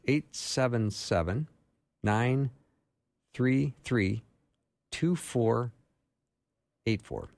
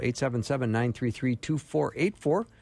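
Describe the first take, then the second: First: The number is said at a slower pace. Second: The number is said at a faster pace.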